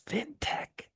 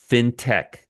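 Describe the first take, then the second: First: Hushed, voiceless stage whisper. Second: Said in the usual way. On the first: Real, not acted. Reminding viewers what sector this is, whispered. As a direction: whisper it like a secret.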